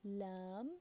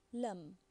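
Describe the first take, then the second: First: Lam with the a held long; long vowel. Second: Lam with a brief a; short vowel. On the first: Teacher reading an example word, Lam with long a. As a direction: stretch out the a in Lam. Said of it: "be pronounced as". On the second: Teacher reading the second word, lam with short a. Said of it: "it will be pronounced as lam". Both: Shown as a demonstration.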